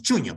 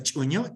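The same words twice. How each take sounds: First: "chuño" with an ordinary Spanish ch; Castilian pronunciation. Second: "chuño" with its Aymara initial sound; original Aymara pronunciation. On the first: Lecturer showing how Spanish simplifies the word, Castilian pronunciation. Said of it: "simplemente decimos chuño". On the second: Lecturer showing what Castilian speakers cannot pronounce, original Aymara pronunciation. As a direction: say "chuño" with the Aymara ch that Spanish lacks. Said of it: "no pueden pronunciar chuño". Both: Shown as a demonstration.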